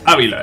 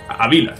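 First: The stress is on the first syllable. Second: The stress is on the second syllable. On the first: The speaker calls it wrong. "No es Ávila" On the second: The speaker calls it right. "es Ávila. Es Ávila, no tiene tilde"

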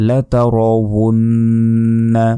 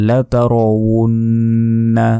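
Both takes have the same delivery.

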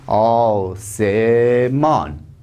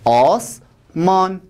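First: The word is said in three syllables. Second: The word is said in two syllables. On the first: The speaker calls it right. "اینجا سه هجایی شد ها" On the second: The speaker calls it wrong. "اونجا دو هجایی بود"

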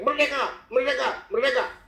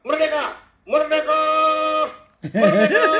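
First: Each shout is clipped short. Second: Each shout is drawn out long.

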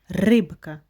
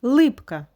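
First: The word begins with an R sound. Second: The word begins with an L sound. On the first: The speaker calls it right. "має бути рибка" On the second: The speaker calls it wrong. "Ні"

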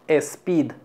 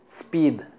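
First: An extra e vowel comes before the s. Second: The word begins directly with the s sound. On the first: The speaker calls it wrong. "no decimos E. Por ejemplo, speed. No" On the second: The speaker calls it right. "Simplemente speed"

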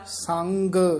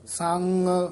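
First: The final g sound is fully pronounced. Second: The final g sound is weak or dropped. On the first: The speaker calls it right. "ਗੱਗਾ ਪੂਰਾ ਲਾਉਣਾ" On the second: The speaker calls it wrong. "ਐ ਨਹੀਂ ਬੋਲਦਾ ਨਾ"

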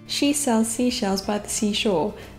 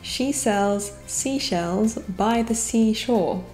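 First: The phrase is said at a fast, hurried speed. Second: The phrase is said at a normal, unhurried speed. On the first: "I shall now try and say it fast" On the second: "A tongue twister I've known since my childhood is"

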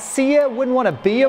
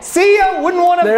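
First: It is said plainly, without extra emphasis. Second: It is said with strong, energetic emphasis. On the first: The speaker calls it wrong. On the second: The speaker calls it right.

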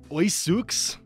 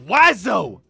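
First: It is read letter by letter, starting 'oy'. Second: It is said as two syllables, starting 'wa'. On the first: The speaker calls it wrong. "No letter is pronounced the way it should" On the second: The speaker calls it right. "It's pronounced wazo"

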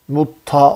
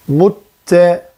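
First: The vowel after the t is thick, a-like. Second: The vowel after the t is thin, e-like. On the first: The speaker calls it wrong. "mutta olmaz" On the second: The speaker calls it right. "ince harf çünkü bu te"

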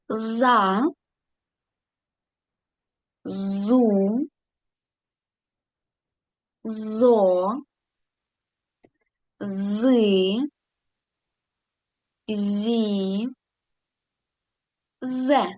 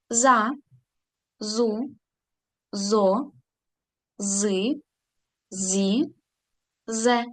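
First: The syllables are read at a normal pace. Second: The syllables are read at a fast pace.

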